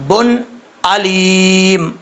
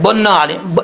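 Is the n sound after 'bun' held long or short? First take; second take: short; long. First: The n sound is short before the next word. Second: The n sound is drawn out before the next word. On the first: The speaker calls it right. "इस तरीके से पढ़ना चाहिए" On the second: The speaker calls it wrong. "ये जो न न की आवाज़ आ रही ये नहीं आनी चाहिए"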